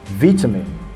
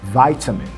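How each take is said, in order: First: It is said with a British accent. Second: It is said with an American accent. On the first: "That's the British pronunciation" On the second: "the Americans are going to say vitamin"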